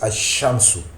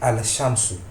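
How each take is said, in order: First: The l is silent and the sh is doubled. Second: The l is clearly pronounced before the sh. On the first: The speaker calls it right. "On prononce ashamsu" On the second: The speaker calls it wrong. "C'est un peu lourd à prononcer"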